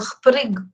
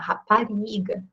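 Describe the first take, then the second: First: European Portuguese accent, syllables compressed and quick. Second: Brazilian accent, every syllable said fully and slowly.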